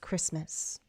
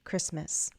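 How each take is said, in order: Both takes have the same delivery.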